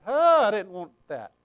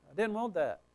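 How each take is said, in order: First: Dismayed "oh", then protest; dismayed objection. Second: Softer, muted protest; subdued objection. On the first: Reader balking at what Scripture says, dismayed protest. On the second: Reader balking at what Scripture says, subdued reluctance. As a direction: say it under the voice, reluctantly. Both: Acted. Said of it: "It's like".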